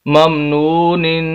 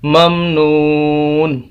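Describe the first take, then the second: First: The word ends with a nasal 'nin' sound. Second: The word ends with a plain 'n' sound. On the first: The reading continues without a pause. "नून दो जेर निन, नाक में आवाज़ जाएगी" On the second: The reader stops and pauses here. "वक्फ की हालत में हम इसको पढ़ेंगे ममनून"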